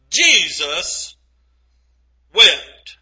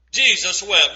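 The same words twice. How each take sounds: First: Long pause between the two words, lower and grave; a solemn pause before wept; slow dramatic reading. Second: Said in the usual way. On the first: Shown as a demonstration. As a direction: let Jesus hang, then drop wept heavily. Dramatic pause on shortest verse.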